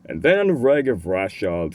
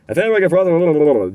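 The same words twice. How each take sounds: First: The phrase is spoken at a very slow tempo. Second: The phrase is spoken at a faster tempo. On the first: The speaker calls it wrong. "very very slowly" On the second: The speaker calls it right. "just increase the tempo"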